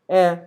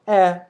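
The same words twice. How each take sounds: The two takes are said the same way.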